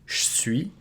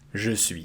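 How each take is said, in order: First: The E is devoiced and nearly dropped. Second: Both words are said fully with the E. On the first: It is a common less formal form. "you can devocalize the E and make it je suis" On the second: It is the proper formal form. "this is the proper way of pronouncing it"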